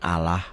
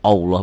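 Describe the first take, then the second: First: The L sound is thin and light. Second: The L sound is thick and heavy. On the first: This is how another religion says the name. "Allah mah agama lain" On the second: This is how Muslims say the name. "orang Islam mah tebel"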